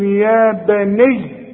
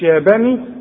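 First: The final y sound is doubled and held. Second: The final y sound is single and short. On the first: The speaker calls it right. "هتقول يا بني" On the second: The speaker calls it wrong. "مش يا بني"

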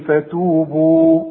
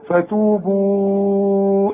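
First: The final vowel is held for two counts. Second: The final vowel is held for four counts. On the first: The recitation stops on this word. "حركتين بس زي ما احنا قلنا ايه فتوبوا" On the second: The recitation continues into the next word. "اذا وصلت امد اربع حركات"

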